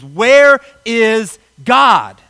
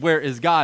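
First: It is asked in a loud, raised voice. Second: It is asked in a calm, plain voice.

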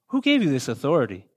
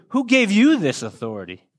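First: It is asked in a friendly, casual tone. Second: It is asked in an accusatory tone.

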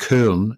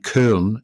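First: The vowel is an umlaut Ö sound. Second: The same.

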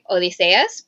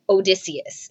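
First: The name is said with Greek pronunciation. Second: The name is said with English pronunciation. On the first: "certain words she pronounced okay, like Odysseus" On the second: "instead of Odysseus"

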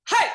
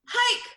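First: It is open and relaxed, like a yawn. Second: It is pushed from the throat, sounding strained.

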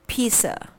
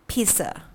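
First: The first vowel is a long e sound. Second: The same.

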